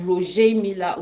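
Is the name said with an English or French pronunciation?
French. The name is said with a French pronunciation. This is how it is popularly said in Cameroon. "but in Cameroon it's"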